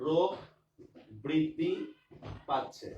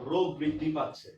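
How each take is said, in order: First: রোগ, বৃদ্ধি, পাচ্ছে each set apart with pauses; word by word. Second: Said in the usual way. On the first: Shown as a demonstration. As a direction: dictate it one word at a time. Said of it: "example read word by word". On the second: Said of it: "same phrase read whole".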